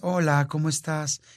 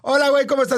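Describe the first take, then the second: First: It is said in a lowered, softer voice. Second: It is said in a normal, louder voice.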